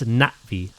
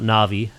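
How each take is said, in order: First: There is a short break between the two syllables. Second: The two syllables run together without a break. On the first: The speaker calls it right. "that's how you pronounce it" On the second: The speaker calls it wrong. "It's not Navi"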